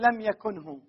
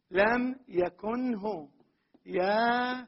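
First: Said in the usual way. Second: Slow repeat. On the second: Shown as a demonstration. Teacher repeating the example slowly for students. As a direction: lay out لم يكنه very slowly, each syllable apart. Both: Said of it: "مثلًا نقول".

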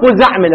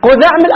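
First: "قزعمل" with a buzzing z sound; with zay. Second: "قذعمل" with a dhal, the voiced "th" of "this". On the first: Teacher giving students the other variant, "قزعمل" pronounced with zay. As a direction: say the second consonant of "قزعمل" as zay, not dhal. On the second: Teacher giving students the first variant, "قذعمل" pronounced with dhal. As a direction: say the second consonant of "قذعمل" as dhal, not zay. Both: Shown as a demonstration. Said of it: "إما بالذال وإما بالزاي".

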